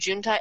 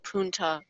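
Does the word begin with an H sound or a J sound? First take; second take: J sound; H sound. First: The word begins with a J sound. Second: The word begins with an H sound. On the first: The speaker calls it wrong. "instead of saying junta" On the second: The speaker calls it right. "it's actually called"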